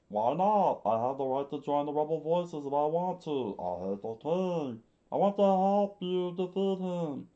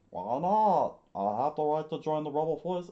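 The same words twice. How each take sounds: First: Put-on indignant kid, higher and louder; high defiant boy, restarted take. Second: Put-on indignant kid, higher and louder, fast; fast high defiant boy. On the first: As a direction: insist like a stubborn boy begging to fight. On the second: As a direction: protest like a stubborn boy. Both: Boy Kappa demands to join.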